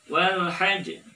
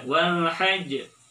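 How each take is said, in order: No difference in how they are said.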